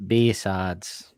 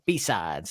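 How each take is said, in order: First: Northern accent. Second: West Coast accent. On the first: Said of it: "in a northern accent". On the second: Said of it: "Or in a sort of West Coast". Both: Shown as a demonstration.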